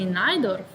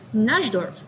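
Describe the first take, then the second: First: The j sounds like the y in yes. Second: The j sounds like the s in measure. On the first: "in Slovenia, we just normally say Najdorf" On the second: "French people say J as je. So they pronounce it Najdorf"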